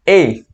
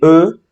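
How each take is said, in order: First: The letter is pronounced as in Spanish. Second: The letter is pronounced as in French. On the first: "en espagnol, on dit E" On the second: "c'est différent à la E du français"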